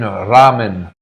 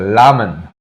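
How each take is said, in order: First: The word starts with a plain R sound. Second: The word starts with an L-like sound.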